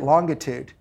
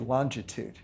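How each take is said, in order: First: The word is said with a British pronunciation. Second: The word is said with an American pronunciation. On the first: "the British say it longitude" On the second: "you thought I was going to say longitude"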